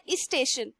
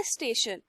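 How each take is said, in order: First: इस स्टेशन, with an extra इ sound before स्टेशन; wrong pronunciation. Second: स्टेशन with a clean st cluster, no vowel before it, said lower and softer; correct pronunciation. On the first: Teacher shows the mistaken version, इस स्टेशन with a leading इ. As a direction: say इस स्टेशन the Hindi way, with a vowel before the s. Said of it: "वो बोलता था". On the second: Teacher gives students the right form: स्टेशन, clean start. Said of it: "लेकिन word क्या होता है?". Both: Shown as a demonstration.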